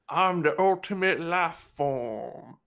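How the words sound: It is spoken in a rural American accent. "a working class guy from like uh"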